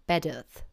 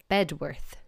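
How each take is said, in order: First: "Bedworth" without the w, like "Beduth"; local pronunciation. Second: "Bedworth" as written, with a clear "worth"; spelling pronunciation. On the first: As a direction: drop the w in "Bedworth": BED-uth. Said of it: "that's wrong, and it's called". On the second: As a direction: keep the w in "Bedworth". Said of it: "I would say". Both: Shown as a demonstration.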